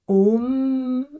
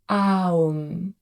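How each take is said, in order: First: A short o is followed by a long m. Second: The vowel glides from a to u before m. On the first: "avec un long M et un court O" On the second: "donc A U M"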